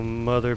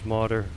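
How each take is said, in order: First: The middle consonant is a 'th' sound. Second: The middle consonant is a 'd' sound.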